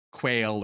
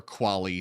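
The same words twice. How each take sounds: First: "Quail" said as one syllable, kwayl; alternative pronunciation. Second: "quali" said in two syllables, KWAH-lee; alternative pronunciation. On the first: Lecturer showing variant pronunciations of a weird word, "Quail" as kwayl. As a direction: say "Quail" to rhyme with "pale". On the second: Lecturer showing variant pronunciations of a weird word, "quali" as KWAH-lee. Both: Shown as a demonstration. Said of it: "some people pronounce it differently".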